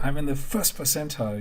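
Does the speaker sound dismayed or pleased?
pleased. It is said in a pleased, happy tone. Ninety-nine percent scored lower.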